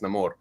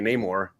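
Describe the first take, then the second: First: It is said with a Spanish pronunciation. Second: It is said with an English pronunciation.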